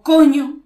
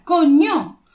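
First: COÑO loud, less high; alternative intonation. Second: COÑO high and loud; emphatic intonation. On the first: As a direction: punch "coño" loudly without soaring. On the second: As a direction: exclaim "coño" on a raised pitch. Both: Shown as a demonstration. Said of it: "Distintas entonaciones".

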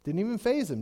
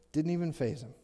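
First: "faze" hit with a falling tune; faze stressed. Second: "even" stressed, lower and softer. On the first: Preacher remarking Saul was unmoved, stressing faze. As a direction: lean on "faze". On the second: Preacher repeating the point quietly, stressing even. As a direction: drop the voice and lean on "even". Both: Shown as a demonstration.

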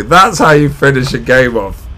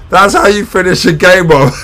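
First: Said in the usual way. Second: High and loud, still buzzing; thrilled fan gloating over the finish; excited. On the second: Real, not acted. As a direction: crow it right after the final whistle.

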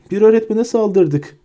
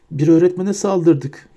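First: Much higher, louder despairing repeat; rising moan. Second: Higher, slow moan on öğretmene; a first dazed moan, "öğretmene" stressed. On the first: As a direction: panic rising on "öğretmene". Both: A narrator's reading. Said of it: "diye inliyordu".

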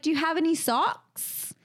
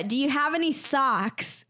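First: Higher-pitched mock Australian question; lightly put-on Australian "socks"; imitated Australian accent. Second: Said in the usual way. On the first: Friend retelling a failed sock request, imitated Australian accent. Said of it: "then you were like". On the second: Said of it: "And I was like".

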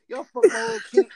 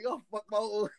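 First: High, loud burst of disbelief; excited outburst. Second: Said in the usual way. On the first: Real, not acted. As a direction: blurt it out, cracking up. Laughing outburst at the others.

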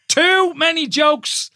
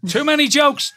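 First: High, drawn-out exclamation; slow, emphatic protest. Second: High, incredulous exclamation at normal speed; high-pitched protest. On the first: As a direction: stretch every word in comic disbelief. Repeats it slowly for comic emphasis. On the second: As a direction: squeal at the innuendo. Co-host amused by the innuendo. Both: Real, not acted.

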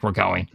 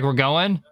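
First: "We're going." pitched lower, as a settled statement; statement tune. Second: "We're going?" with a rising, asking tune; questioning rise. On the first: Narrating her answer in the walkout, "We're going." as low statement. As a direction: drop "going" low, no question in it. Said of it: "She's like". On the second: Narrating delegates in the walkout, "We're going?" as a rising question. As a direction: lift the end of "going" into a question. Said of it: "they're like". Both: Retold or imitated.

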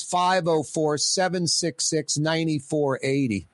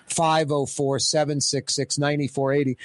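First: Slow, deliberate number read. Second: Said in the usual way. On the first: Shown as a demonstration. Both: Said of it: "phone lines".

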